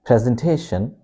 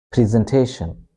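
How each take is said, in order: First: "presentation" as PREZ-en-TAY-shun; short E as in pen opening "presentation"; British pronunciation. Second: "presentation" as PREE-zen-TAY-shun; long EE opening "presentation"; American pronunciation. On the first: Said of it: "pronounce this E as it is in pen". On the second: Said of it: "becomes double E sound". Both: Shown as a demonstration.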